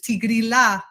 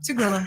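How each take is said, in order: First: It is said with an Italian accent. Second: It is said with an American accent. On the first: "they pronounce it the Italian way, ... not the ya" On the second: "the Americans just say"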